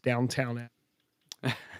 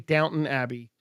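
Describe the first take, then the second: First: The first word ends in a full 'town' sound. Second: The first word ends in a plain 'ton' sound. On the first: The speaker calls it wrong. "mispronounce it as Downtown Abbey" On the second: The speaker calls it right. "I learned to say Downton Abbey"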